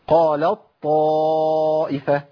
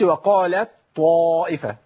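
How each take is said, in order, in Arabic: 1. تُدغم التاء كاملةً في طاءٍ مشددة. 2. تُنطق التاء منفصلةً قبل الصوت الذي بعدها. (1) "بشيل التاء وابدلها بطاء" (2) "ما اقولش"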